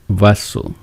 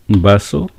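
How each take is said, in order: First: The word begins with a v sound. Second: The word begins with a b sound. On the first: "People doesn't say vaso" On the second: "They will say vaso"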